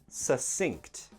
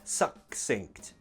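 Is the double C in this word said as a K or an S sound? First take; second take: S; K. First: The double C is said as an S sound. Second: The double C is said as a K sound. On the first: The speaker calls it right. "Imagine that is a double S" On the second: The speaker calls it wrong. "we don't pronounce it like a hard C, like a K sound. It's not succinct"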